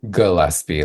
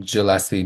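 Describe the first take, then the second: First: Gillespie with a hard G, as in Gilman. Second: Gillespie with a soft G, like a J. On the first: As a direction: say Gillespie starting with a firm g sound. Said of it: "it's a hard G". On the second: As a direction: mispronounce Gillespie with a j sound at the start. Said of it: "people will call me". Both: Shown as a demonstration.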